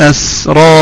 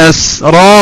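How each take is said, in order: No difference in how they are said.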